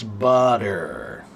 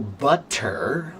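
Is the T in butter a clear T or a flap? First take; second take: flap; clear T. First: The middle T is a quick, soft flap. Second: The middle T is a clear, crisp T. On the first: This is the relaxed form of casual speech. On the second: This is the careful form taught to children.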